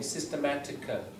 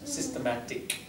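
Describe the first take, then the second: First: A short extra vowel follows the final consonant. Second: The word ends cleanly on the final consonant. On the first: The speaker calls it wrong. "just make sure you don't put a little schwa on the end" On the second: The speaker calls it right. "don't let that little schwa at the end come out"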